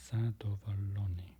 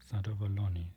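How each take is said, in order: First: Zadowolony in an unvoiced, breathy whisper. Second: Said in the usual way. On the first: Shown as a demonstration. Repeating Polish word whispered.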